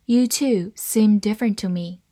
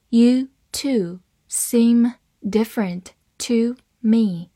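First: Said in the usual way. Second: "You two seem different to me", slow, word by word; slow read-along. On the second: Shown as a demonstration. Teacher modelling the seem example for learners, slow word-by-word reading. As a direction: leave clear gaps between the words. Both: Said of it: "好，慢慢来读".

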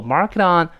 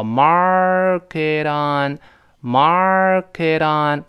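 First: "mark it on" quickly linked with a flapped t; tongue-flick t. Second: "mark it on" stretched out very slowly; slow linking demo. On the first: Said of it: "这舌头的顿挫，有弹的这个动作". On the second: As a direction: draw out "mark it on", gliding through the link. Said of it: "轻轻的连读加注哈". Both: Shown as a demonstration.

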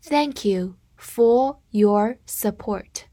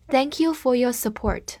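First: Very slow, careful model sentence; slow reading. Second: Said in the usual way. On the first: Shown as a demonstration. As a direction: read it slowly for students to repeat. (慢速示范朗读) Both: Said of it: "跟着我慢读一遍".

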